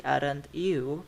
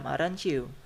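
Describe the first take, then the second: First: "aren't you" as two words, rising at the end; slow, separate "aren't" and "you"; unlinked AREN'T YOU. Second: "aren't you" blended as "arenchoo"; assimilated AREN'T YOU. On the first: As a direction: keep the t apart from "you" in "aren't you". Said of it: "Become aren't you". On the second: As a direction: link "aren't you" with a ch, falling. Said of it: "This is assimilation". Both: Shown as a demonstration.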